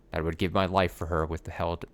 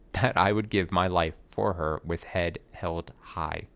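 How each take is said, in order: First: Said in the usual way. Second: Slow, with a laugh; laughing retake. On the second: Shown as a demonstration. Actor laughing as he redoes the flubbed line.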